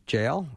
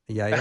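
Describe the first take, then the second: First: The name begins with an English J sound. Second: The name begins with a Y sound. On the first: "I'll continue to work on saying that" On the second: "You get that Hebrew pronunciation down"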